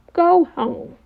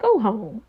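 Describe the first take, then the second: First: "Go home" pitched high, insistent; emphatic repeat. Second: Said in the usual way. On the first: Real, not acted. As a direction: push "Go home" up higher, as an order. Host repeats dismissal more emphatically.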